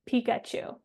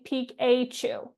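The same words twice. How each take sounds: First: The middle vowel is a weak schwa sound. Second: The middle vowel is a full, clear vowel. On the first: The speaker calls it right. "we say Pikachu. That letter A in Pikachu is representing a schwa vowel sound" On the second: The speaker calls it wrong. "we don't say Pikachu"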